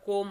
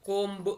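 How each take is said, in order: First: The word ends with m, no b sound. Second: The word ends with an audible b sound. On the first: The speaker calls it right. "బి silent letter కోమ్ అనాలి" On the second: The speaker calls it wrong. "కోంబ్ అనకూడదండి"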